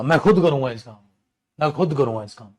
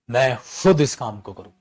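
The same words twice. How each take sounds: First: खुद pressed firmly, rest of the line plain; stress on खुद. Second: Said in the usual way. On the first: Shown as a demonstration. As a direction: lean hard on खुद, teacher's demo. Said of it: "जोर लगा के बोलना". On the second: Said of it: "emphasise होता है बेटा जोर लगा के बोल".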